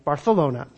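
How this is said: The c is said like a th. This is how it is said in Barcelona. "kind of a little lisp on that C"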